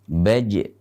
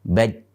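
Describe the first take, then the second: First: The final j is released with an echoing bounce. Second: The final j is held closed without any bounce. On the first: The speaker calls it right. "harus dibaca dengan pantulan" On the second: The speaker calls it wrong. "tidak memantulkannya akan keliru ... tanpa pantulan"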